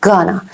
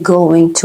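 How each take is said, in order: First: "gonna" run into one word; reduced form. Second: "going to" as two full words; full form. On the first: Teacher showing how Americans say it, reduced. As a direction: blend it to "gonna". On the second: Teacher naming the phrase before reducing it, full form. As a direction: say "going to" unreduced. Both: Shown as a demonstration.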